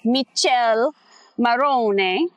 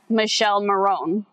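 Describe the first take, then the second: First: The name gets an Italian-style pronunciation. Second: The name is read the way it looks. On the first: The speaker calls it right. "no, it's" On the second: The speaker calls it wrong. "the way you look at it, it looks like his name is"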